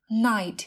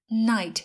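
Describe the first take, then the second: Both takes have the same delivery.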